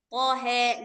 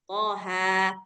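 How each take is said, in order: First: The final vowel is bent toward 'e'. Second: The final vowel is an open 'a'. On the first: This follows a different reading tradition. "yang ujung-ujungnya E, itu dia pakai riwayat lain" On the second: This is the reading commonly used in Southeast Asia. "riwayat Hafs an Asim itu yang kita baca sekarang"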